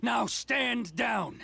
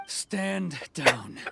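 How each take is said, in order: First: "Now stand down." drawn out very slowly, higher, each word weighted; stern repeated command. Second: Clipped order, louder; firm command. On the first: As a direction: hammer the order home, slowly. Repeated order to soldier. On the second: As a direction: cut him off with authority. Commander orders soldier back. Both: Acted.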